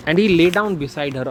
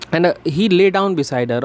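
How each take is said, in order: First: Slow read. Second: Slower, higher read. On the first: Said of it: "reads line slowly". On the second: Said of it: "rereads line slower, higher". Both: Shown as a demonstration.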